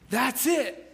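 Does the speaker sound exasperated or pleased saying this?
pleased. It is said in a pleased, discovering tone. The speaker has found the answer sought. "That's what I was looking for. That's the answer"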